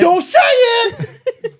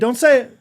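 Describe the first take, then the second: First: It is said in a wild, goofy voice. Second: It is said in a calm, ordinary way. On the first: "I'm getting so wacky" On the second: "at first it's like"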